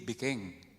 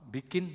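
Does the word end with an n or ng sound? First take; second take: ng; n. First: The word ends in an ng sound. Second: The word ends in a plain n sound.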